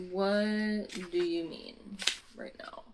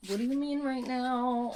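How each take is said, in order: First: Drawn-out, halting incredulous question; slow disbelief. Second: Incredulous question pitched up; high-pitched disbelief. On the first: Reader questions the plot twist, slowly and in disbelief. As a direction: space the words out at usual pitch. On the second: Reader questions the plot twist, in high incredulous tones. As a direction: repeat it higher, in a whine of disbelief. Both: Real, not acted.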